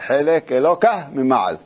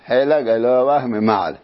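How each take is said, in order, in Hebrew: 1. שם האל מסתיים בלי צליל 'ah' של פתח גנוב. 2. שם האל מסתיים עם צליל 'ah' של פתח גנוב. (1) "כשהם מבטאים את זה" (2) "זה בעצם פסוק באיוב"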